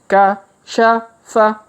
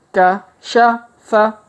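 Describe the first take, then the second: Both takes have the same delivery.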